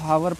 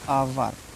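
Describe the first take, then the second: First: The word starts with an h sound. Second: The word starts directly with a vowel. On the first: The speaker calls it wrong. "बहुत से बच्चे इसको हावर पढ़ते हैं" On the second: The speaker calls it right. "आवर लिखा है"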